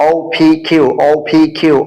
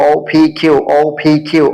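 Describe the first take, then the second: Both takes have the same delivery.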